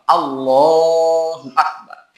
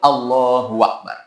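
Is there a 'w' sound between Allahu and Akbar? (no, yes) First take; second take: no; yes. First: No 'w' sound comes between Allahu and Akbar. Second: A 'w' sound links Allahu to Akbar. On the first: The speaker calls it right. "Maka harus dirubah" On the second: The speaker calls it wrong. "Nggak boleh Allahu Akbar"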